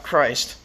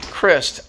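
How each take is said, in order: First: "Christ" with a long i, as in "iced"; pronounced like Jesus Christ. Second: "Christ" said with a short i, like "wrist"; pronounced Crist. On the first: Politician giving the wrong version of his name, "Christ" with a long i. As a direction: say "Christ" to rhyme with "sliced". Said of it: "my name is". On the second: Politician correcting Ron on his name, "Christ" with a short i. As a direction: say "Christ" as Crist, rhyming with "list". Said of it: "not Christ". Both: Retold or imitated.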